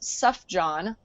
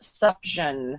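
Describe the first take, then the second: First: The middle consonant is a J sound. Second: The middle consonant is an SH sound. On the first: "as in like J O H N" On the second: "with the the G like a, a sh sound"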